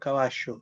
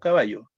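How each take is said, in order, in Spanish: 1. La ll suena como sh o ch. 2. La ll suena como una y suave. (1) "ellos dicen caballo, suena como una che" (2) "nosotros decimos caballo"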